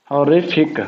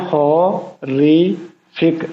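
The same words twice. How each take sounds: First: Said in the usual way. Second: horrific very slowly as हॉ, रि, फिक; syllable by syllable. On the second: Shown as a demonstration. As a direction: stretch horrific into three separate syllables, pausing between. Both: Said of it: "इसके कितने syllable हैं".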